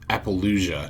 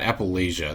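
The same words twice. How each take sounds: First: The second syllable has an O vowel. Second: The second syllable has an A vowel. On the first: The speaker calls it right. "it's Appalachia, that's an O" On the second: The speaker calls it wrong. "not Appalachia, not an A"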